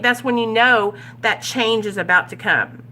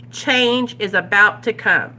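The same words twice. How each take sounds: First: Said in the usual way. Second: "Change is about to come" repeated slowly, leaning on "Change"; slow down and press "Change"; slow emphatic echo. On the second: Shown as a demonstration. Sponsor repeats to the group, slow and emphatic.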